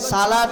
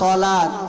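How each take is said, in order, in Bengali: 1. এটি সাধারণ, হালকা 's' ধ্বনি দিয়ে শুরু হয়। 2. এটি ভারী, ইমফেটিক 's' ধ্বনি দিয়ে শুরু হয়। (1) "সালাত হলো খাবারের ডা" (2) "সলাত হলো কোনডা? নামাজের ডা, সদ দিয়া।"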